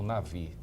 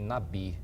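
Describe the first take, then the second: First: The middle consonant is a v sound. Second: The middle consonant is a b sound. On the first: This is how the original Hebrew word is pronounced. "a palavra que é comumente conhecida como profeta" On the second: This follows the common written transliteration. "a transliteração comum é com o B"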